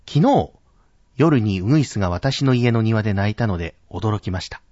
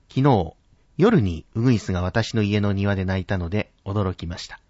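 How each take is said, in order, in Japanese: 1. 「昨日」は高く、強く発音されている。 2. 「夜に」は高く、強く発音されている。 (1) "このように昨日というところを高く発音する" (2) "夜にというところを少し高く発音すると"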